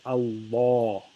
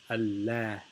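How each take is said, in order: First: The L sounds thick and dark. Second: The L sounds thin and clear. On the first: "The heavy lam is pronounced as Allah" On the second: "the light lam is pronounced as Allah"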